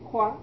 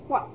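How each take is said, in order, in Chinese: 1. 音节 hua 读平调。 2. 音节 hua 读降调。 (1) "也有读成花" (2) "现在我们读这个华字要读华"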